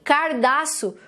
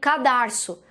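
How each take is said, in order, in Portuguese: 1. O som do r está na primeira sílaba. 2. O som do r está na segunda sílaba. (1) "os filhos repetem o mesmo erro" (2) "ao invés de falarem cadarço"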